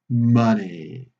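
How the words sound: The pitch falls at the end of the word. It ends a question asking for information. "we go down in pitch with the glide down"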